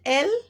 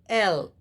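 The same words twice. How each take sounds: First: The letter is said in an Indian accent. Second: The letter is said in a Western accent. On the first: "We call it" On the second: "they say"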